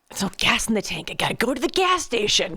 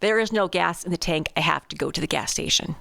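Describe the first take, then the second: First: It is said in an annoyed, frustrated tone. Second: It is said in a plain, neutral tone.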